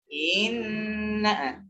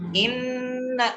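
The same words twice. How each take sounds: First: The first vowel is lengthened. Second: The first vowel is short. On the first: The speaker calls it wrong. "jangan dibaca inna. Inna itu berarti ada madnya" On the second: The speaker calls it right. "Sama saya baca inna"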